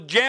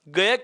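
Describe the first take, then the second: First: It begins with a j sound. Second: It begins with a hard g sound. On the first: This is the pronunciation linguistics treats as correct. The speaker calls it right. "इसका वास्तविक जो उच्चारण भाषा विज्ञान की दृष्टि से बात की जाए तो जय होता है" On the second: This is the common everyday pronunciation. The speaker calls it wrong. "इस गे का उच्चारण क्या किया जाता है, गय किया जाता है"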